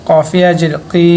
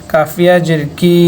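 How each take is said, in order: First: "কি" as qi, from the back of the throat; qaf sound. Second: "কি" as ki, with a light k; plain front k in "কাফিয়া" and "কি"; kaf sound. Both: Shown as a demonstration. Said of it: "দুইটার উচ্চারণ পার্থক্য আছে".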